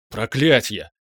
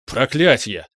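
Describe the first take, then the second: First: Sudden, alarmed curse; startled cry. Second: Louder cry of a curse; shouted curse. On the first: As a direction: cry out, taken aback. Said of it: "вскрикнул паладин". (вскрикнуть испуганно) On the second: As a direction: yell the curse out. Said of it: "выкрикнул Ириан". (выкрикнуть) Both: A narrator's reading.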